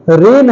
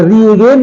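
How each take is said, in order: First: Said in the usual way. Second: रीगेन with a hard g; wrong pronunciation. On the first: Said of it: "जी silent है". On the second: Shown as a demonstration. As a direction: sound the silent g in रीगेन. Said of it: "नहीं".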